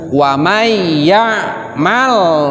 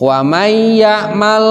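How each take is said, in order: First: The l sound is clear and firm. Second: The l sound is nasalized. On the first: The speaker calls it right. "Tapi harus tegas" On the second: The speaker calls it wrong. "jangan dikasih gunah loh kalau lam sukun"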